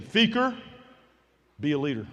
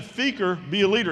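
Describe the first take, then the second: First: Said in the usual way. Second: Retold coach getting insistent; more intense. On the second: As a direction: press the order home with growing intensity. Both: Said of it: "he's getting a little more intense".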